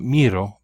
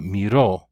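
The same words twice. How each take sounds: First: "miro" said MI-ro, as the wrong take; "miro" with an unstressed final o; stress on first syllable. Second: "miró" said mi-RO; stress on final O. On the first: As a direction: lean on the mi of "miro". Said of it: "not miro". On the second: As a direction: put the weight on the last syllable of "miró". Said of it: "should have a written accent on the O". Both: Shown as a demonstration.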